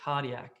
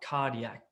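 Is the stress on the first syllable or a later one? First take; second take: first; first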